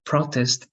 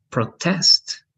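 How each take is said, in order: First: Noun "protest" with PRO stressed; stress on first syllable. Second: Verb "protest" with TEST stressed; stress on second syllable. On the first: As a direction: say "protest" slowly, leaning on PRO. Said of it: "Protest is a noun". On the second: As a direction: say "protest" slowly, leaning on TEST. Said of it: "and that's a verb". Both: Shown as a demonstration.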